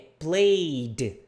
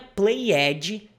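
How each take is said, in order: First: The ending is a plain 'd' sound. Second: The ending is a separate 'ed' syllable. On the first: The speaker calls it right. "é played" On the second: The speaker calls it wrong. "Não é played"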